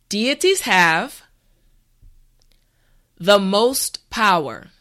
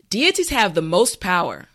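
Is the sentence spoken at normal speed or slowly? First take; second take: slowly; normal speed. First: The sentence is spoken slowly and carefully. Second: The sentence is spoken at a normal pace. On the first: "this time repeat after me" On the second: "the last time at a regular pace"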